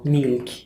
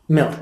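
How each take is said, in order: First: The vowel is said long. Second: The vowel is said short. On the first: The speaker calls it wrong. "They are not fish or girl or I don't know milk" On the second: The speaker calls it right. "It's a short e"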